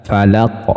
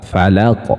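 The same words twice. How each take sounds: The two takes are said the same way.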